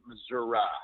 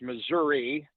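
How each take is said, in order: First: It uses the southern Missouri pronunciation. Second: It uses the Kansas City area pronunciation. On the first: "If you get much further south of here, a lot of people pronounce it Missouri" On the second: "If you're in around Kansas City, uh, it is Missouri"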